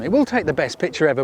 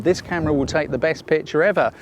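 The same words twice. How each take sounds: First: Emphatic "will", then fall away; stress on WILL. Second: Said in the usual way. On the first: Real, not acted. Photographer conceding the marketers' claim, stress on "will". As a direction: lean on "will" to concede the point.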